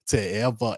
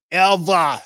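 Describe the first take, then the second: First: Said in the usual way. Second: Ever called out much higher and louder, falling at the end; rising loud ever. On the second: Acted. Telling the story, the last ever belted high and loud.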